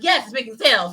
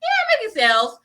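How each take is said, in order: First: Upbeat, emphatic YES; enjoying it. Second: High-pitched, half-hearted YEAH; unenthused contrast. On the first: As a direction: say yes like you enjoy the sales. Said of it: "you wanna enjoy that". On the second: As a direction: squeak out yeah with feigned cheer. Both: Acted.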